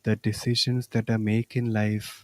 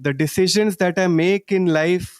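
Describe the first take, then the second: First: The words are spoken softly. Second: The words are spoken loudly. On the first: "Softly now" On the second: "Loudly once again"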